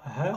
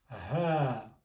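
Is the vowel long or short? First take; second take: short; long. First: The vowel is short. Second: The vowel is drawn out long. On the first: The speaker calls it wrong. "on ne dit pas ha" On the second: The speaker calls it right. "allonger la voyelle A"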